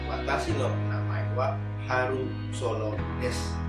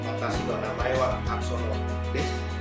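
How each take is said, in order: First: The name is said slowly with a u between r and s. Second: The name is said with no vowel between r and s. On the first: The speaker calls it right. "pelan-pelan saja sampaikan" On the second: The speaker calls it wrong. "jangan sampai Anda bilang ... Itu sulit didengar"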